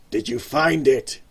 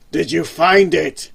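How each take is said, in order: First: A gang boss growls at his man; angry growl. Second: Slow, much louder, forceful repeat; the boss demands an answer again. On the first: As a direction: growl it like a threat. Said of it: "growled an angry voice". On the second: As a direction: hammer the question home. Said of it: "demanded V". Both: Acted.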